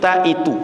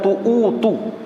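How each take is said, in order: First: The first vowel is an a sound. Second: The first vowel is a u sound. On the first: The speaker calls it right. "tapi ta'itu" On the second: The speaker calls it wrong. "bukan tu'utu"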